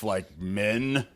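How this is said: It is said in a put-on, tough, confident voice. The joke lands as intended. The speaker calls it right. "I'm going to do it in the voice of who should tell it. That's how it should have landed"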